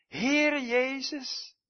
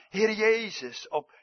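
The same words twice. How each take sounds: First: Slow, high, loud calling out to the Lord; a dying man's fervent prayer, called out slow and high; fervent cry. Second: A touch slow, high and loud; fervent cry. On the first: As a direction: cry his name out to heaven, drawn out. Quoting Stephen's dying prayer. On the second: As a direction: call the name out in earnest. Quoting Stephen's prayer again. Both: Acted.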